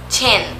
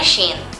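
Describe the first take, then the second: First: The name begins with a ch sound. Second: The name begins with a sh sound. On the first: The speaker calls it right. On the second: The speaker calls it wrong.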